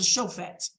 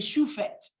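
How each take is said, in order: First: The first vowel is an O sound. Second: The first vowel is a U sound. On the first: This is the standard Hebrew pronunciation. "as opposed to shofet" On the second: This is the older regional pronunciation. "with the Punic, it was more regularly shufet"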